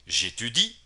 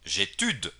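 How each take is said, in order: First: The final i sound is clearly pronounced. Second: The final i sound is dropped from the verb. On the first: The speaker calls it right. "la i es lo que más suena en este verbo" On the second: The speaker calls it wrong. "mucha gente, principiantes ni no tan principiantes, pronuncian j'étude"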